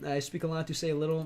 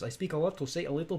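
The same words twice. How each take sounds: First: It is read in his ordinary accent. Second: It is read in a Russian accent.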